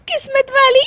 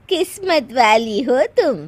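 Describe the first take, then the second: First: High incredulous echo between bursts of giggles; laughing. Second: Said in the usual way. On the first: Acted. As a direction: repeat it as a question and crack up. (हंसते हुए ऊंची आवाज़ में दोहराना) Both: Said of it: "हंस क्यों रही हो".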